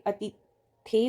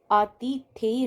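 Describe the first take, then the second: First: अतिथेय starting with short "a"; corrected first vowel. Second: आतिथेय starting with long "aa"; wrong long first vowel. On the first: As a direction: say अतिथेय as "a-ti-they". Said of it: "अतिथेय होता है". (अतिथेय में अ छोटा) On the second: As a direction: drag out "aa-ti-they" in आतिथेय. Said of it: "ना होके अतिथेय होता है". (आतिथेय में आ लंबा) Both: Shown as a demonstration.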